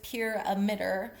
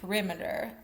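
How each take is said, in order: First: It sounds like the words 'pure emitter'. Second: It sounds like the word 'perimeter'. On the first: "I'm going with pure emitter" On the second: "but it could also be perimeter"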